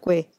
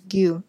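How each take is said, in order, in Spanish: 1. La sílaba se dice con un sonido 'weh'. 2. La sílaba se dice con un sonido 'yoo'. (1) "no Gue" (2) "en coreano es Gyu"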